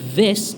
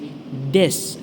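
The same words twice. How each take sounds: First: The word begins with a soft th sound. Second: The word begins with a hard stop sound. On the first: The speaker calls it right. "instead of saying" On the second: The speaker calls it wrong. "I used to say"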